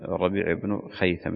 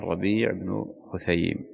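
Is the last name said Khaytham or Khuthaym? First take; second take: Khaytham; Khuthaym. First: The last name is said as Khaytham. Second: The last name is said as Khuthaym. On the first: The speaker calls it wrong. "تقديم الياء، هذا غلط" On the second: The speaker calls it right. "لا هو الربيع بن خثيم"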